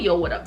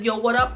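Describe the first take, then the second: First: It sounds relaxed and laid-back. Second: It sounds aggressive and hostile.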